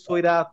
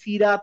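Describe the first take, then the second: First: The first syllable has an 'oi' vowel. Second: The first syllable has a plain 'ee' vowel. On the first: The speaker calls it right. "বলছি সৈরাত" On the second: The speaker calls it wrong. "সিরাত না বলে"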